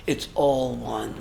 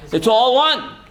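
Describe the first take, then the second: First: It's all one, repeated low, soft and slow; hushed It's all one; soft echo. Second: It's all one, said firmly and raised; emphatic statement. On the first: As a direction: let It's all one sink in quietly. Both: Shown as a demonstration.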